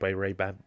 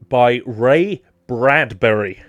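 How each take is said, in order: First: The surname is slurred and comes out garbled. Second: The surname is said slowly with every syllable clear. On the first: The speaker calls it wrong. "I've never been able to say Bradbury" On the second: The speaker calls it right. "Had to really enunciate and think on that one"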